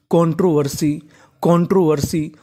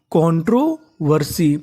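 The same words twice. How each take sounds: First: Said in the usual way. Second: controversy said slowly, every syllable clear; slow teaching demo. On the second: Shown as a demonstration. Teacher to students, sounding out the word slowly. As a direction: draw controversy out for the class. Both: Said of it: "तो पूरी meaning क्या बनी?".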